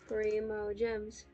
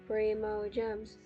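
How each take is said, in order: Both takes have the same delivery.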